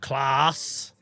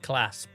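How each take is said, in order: First: The vowel is long and drawn out. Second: The vowel is short and plain. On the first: "add about another three A's in there" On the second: "I call it a class, but that's just me"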